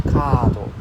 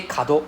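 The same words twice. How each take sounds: First: Kado with a drawn-out KA; long A. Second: Kado with a short, quick KA. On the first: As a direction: hold the first vowel of kado long. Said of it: "it's a long A sound". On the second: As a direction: keep the first vowel of kado brief. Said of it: "kado becomes corner". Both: Shown as a demonstration.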